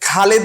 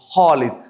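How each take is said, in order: First: The first sound is a light kh. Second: The first sound is thick and rounded. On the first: The speaker calls it wrong. "Bangla খও না, যে খালিদ বলবো না" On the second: The speaker calls it right. "একটু মোটা করে গোল করে বলবো"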